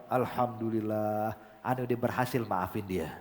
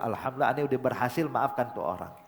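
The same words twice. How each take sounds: First: Relieved, heartfelt. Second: Said in the usual way. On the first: Retold or imitated. Habib relieved after forgiving.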